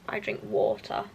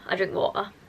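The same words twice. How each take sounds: First: It is said in a posh accent. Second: It is said in a Yorkshire accent.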